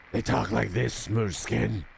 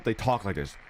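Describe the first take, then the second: First: Raspy ghoul voice, lightly done; a hint of a Fallout ghoul growl; ghoul voice imitation. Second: Said in the usual way. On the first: Shown as a demonstration. Streamer imitating how ghouls talk, lightly raspy.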